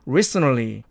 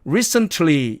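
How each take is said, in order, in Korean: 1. n 뒤의 t 소리는 탈락합니다. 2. n 뒤의 t 소리는 발음합니다. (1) "가운데 놈을 탈락시켜서" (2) "사전식 발음으로는 recently 이렇게 됩니다"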